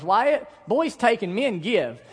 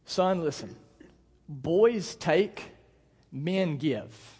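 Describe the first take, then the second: First: Put-on higher, slow little-girl scolding; lightly mimicked girl, drawn out and louder; imitating young daughter. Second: Measured, with weighty pauses; fatherly lesson, one short phrase at a time; father instructing son. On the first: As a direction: parrot Dad's lesson as a bossy child. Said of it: "and she goes". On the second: Retold or imitated. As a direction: spell out a lesson to a small child. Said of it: "here's what I told him".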